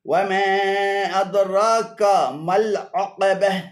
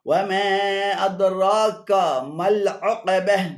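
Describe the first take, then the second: No difference in how they are said.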